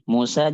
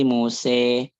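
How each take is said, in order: First: The final vowel is a plain open 'a'. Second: The final vowel leans toward 'e'.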